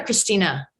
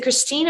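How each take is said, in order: First: "Christina" with an added "uh" ending; name with final vowel. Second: "Christine" ending on the n; name without final vowel. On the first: Host asking which name is right, "Christina" with final vowel voiced. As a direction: sound out the last vowel of "Christina". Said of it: "pronounced the E at that end". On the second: Host checking a guest's name, "Christine" with no final A. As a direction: say "Christine" in two syllables, no A. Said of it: "you had pronounced the E". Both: Shown as a demonstration.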